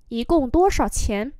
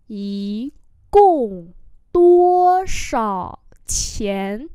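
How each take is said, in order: First: Said in the usual way. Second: Very slow, projected syllables; word-by-word pronunciation model; slow demonstration. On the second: Shown as a demonstration. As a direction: stretch each word, louder after the first. Teacher repeats slowly for learners.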